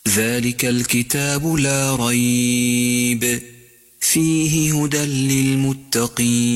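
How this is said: There is a pause after 'la rayb'.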